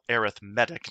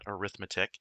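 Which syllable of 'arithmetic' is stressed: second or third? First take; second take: third; second. First: The stress is on the third syllable. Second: The stress is on the second syllable. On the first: The speaker calls it right. "It's actually pronounced with the accent on the third syllable" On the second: The speaker calls it wrong. "not arithmetic"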